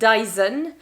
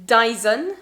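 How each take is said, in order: The two takes are said the same way.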